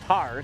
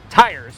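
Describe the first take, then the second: First: The vowel is flattened, sounding like 'tars'. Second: The vowel is a full glide, like 'tires'. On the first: The speaker calls it wrong. "not tars" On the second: The speaker calls it right. "Tires, not tars"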